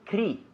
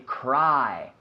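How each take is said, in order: First: The vowel is a plain, short i sound. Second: The vowel is the gliding 'eye' sound. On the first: The speaker calls it wrong. "We don't say cri" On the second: The speaker calls it right. "I, like ojo. We say cry"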